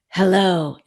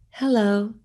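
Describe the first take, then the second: First: It is said in an angry voice. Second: It is said in a sad voice.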